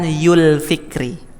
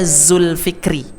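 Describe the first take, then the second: First: The name begins with a y sound. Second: The name begins with a z sound. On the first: The speaker calls it wrong. "bukan Yul Fikri" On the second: The speaker calls it right. "Nama saya Zulfikri"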